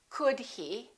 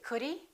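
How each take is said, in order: First: The h sound of he is pronounced. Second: The h sound of he is dropped.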